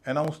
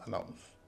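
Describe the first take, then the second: First: The first vowel is a full 'ay' sound. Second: The first vowel is a weak, short 'uh' sound. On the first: The speaker calls it wrong. "अनाउंस नहीं बोला जाएगा" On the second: The speaker calls it right. "बोला जाएगा अनाउंस"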